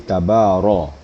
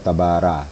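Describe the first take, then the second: First: The r is pronounced heavy, with a full 'o' vowel. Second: The r is pronounced light, with a thin 'a' vowel. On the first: The speaker calls it right. "maka bacanya tafkhim atau tebal" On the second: The speaker calls it wrong. "jangan dibaca tabara"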